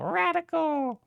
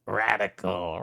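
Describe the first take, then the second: First: Radical said very high and squeaky, falling. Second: Said in the usual way. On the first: Shown as a demonstration. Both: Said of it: "repeated with contrasting delivery".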